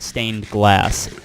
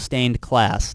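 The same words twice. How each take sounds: First: The second word starts with a G sound. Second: The second word starts with a K sound. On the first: The speaker calls it right. "not stained glass" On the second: The speaker calls it wrong. "I keep wanting to say class"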